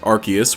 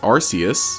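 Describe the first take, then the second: First: The C is said as a K sound. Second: The C is said as an S sound. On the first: "with a hard C" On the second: "The E coming after C would make it soft"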